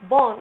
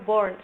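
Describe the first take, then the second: First: A British accent with the R sound dropped. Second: An American accent with the R clearly pronounced. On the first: "R-nya tidak dibaca jelas, itu biasanya British" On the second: "kalau di Amerika bilangnya born"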